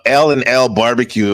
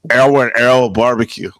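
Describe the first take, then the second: First: It is said in a plain American accent. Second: It is said with an imitated Japanese accent.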